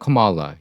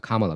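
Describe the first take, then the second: First: The first vowel is a reduced 'uh' sound. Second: The first vowel is an open 'ah' sound. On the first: This is the version used for mostly white American audiences. "그냥 미국 백인들이 많은 데면 커말라" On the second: This is the authentic Indian pronunciation. "카말라는 이제 그 인도식 진짜 발음이라고 그럽니다"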